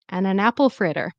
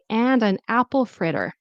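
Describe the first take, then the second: First: The D in 'and' is dropped, reduced. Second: The D in 'and' is clearly pronounced. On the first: "It sounds like you're saying and an" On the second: "if you'd like to pronounce the D in careful speech"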